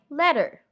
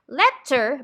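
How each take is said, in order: First: The middle consonant is a soft D sound. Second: The middle consonant is a crisp T sound.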